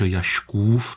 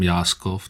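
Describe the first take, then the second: First: The middle consonant is a soft sh sound. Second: The middle consonant is a hard s sound. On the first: This is the original Polish form of the name. "tam je měkký š Jaškův" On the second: This is how most local people assumed it sounds. "většina lidí myslela, že jsem Jáskov"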